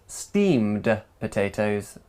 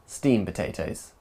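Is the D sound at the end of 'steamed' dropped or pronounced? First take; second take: pronounced; dropped. First: The D at the end of steamed is pronounced. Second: The D at the end of steamed is dropped.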